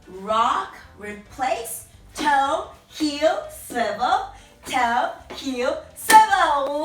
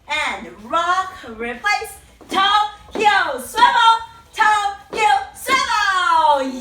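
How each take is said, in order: First: It is said at normal volume. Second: It is said loudly.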